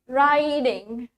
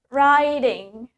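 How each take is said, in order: First: American accent, with the T sounding like D. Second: American accent, with the T sounding like D.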